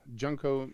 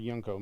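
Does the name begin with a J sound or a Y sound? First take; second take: J sound; Y sound. First: The name begins with a J sound. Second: The name begins with a Y sound. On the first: "the art is by Junko Mizuno" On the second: "or Yunko Mizuno, if it's pronounced that way"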